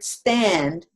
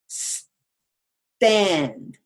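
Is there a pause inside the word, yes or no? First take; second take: no; yes. First: The word is said smoothly without a break. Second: There is a short break after the s. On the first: "instead of saying just the word stand" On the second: "we split it. We paused before we got to the second"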